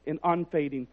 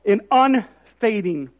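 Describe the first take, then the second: First: Quiet, falling "and unfading"; soft reading. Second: "and unfading" slowed and stressed, louder; slow emphatic rereading. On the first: Pastor first reads the verse, soft and low. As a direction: say "and unfading" softly, letting it fall. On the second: Pastor rereads the verse, slow and emphatic. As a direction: draw out "and unfading" with weight. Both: Shown as a demonstration. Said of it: "I want to read that again".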